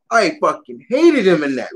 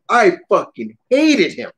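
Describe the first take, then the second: First: Said in the usual way. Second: "hated" stretched out slowly and hit hard; stress on hated. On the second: Real, not acted. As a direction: lean hard on "hated", slow.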